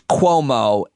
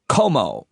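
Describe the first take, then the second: First: It is said with a 'w' sound after 'k'. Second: It is said without a 'w' sound after 'k'. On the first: The speaker calls it right. "but it is Cuomo" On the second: The speaker calls it wrong. "you pronounce the the last name Como"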